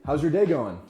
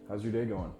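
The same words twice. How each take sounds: First: It is said in a loud, projected, lively voice. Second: It is said in an ordinary, low-energy voice. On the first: "Instead, you're gonna say" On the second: "Normally you say"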